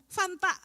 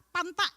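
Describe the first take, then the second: First: The word starts with an f sound. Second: The word starts with a p sound. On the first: "nggak bisa ngomong Fanta" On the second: "Panta gitu ya"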